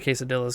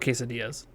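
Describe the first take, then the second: First: The double L is said as an L sound. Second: The double L is said like a Y sound. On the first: It is said this way as a joke. The speaker calls it wrong. "I say quesadillas because it's funny" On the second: This is the usual way to say it. The speaker calls it right. "I think it's just called quesadillas"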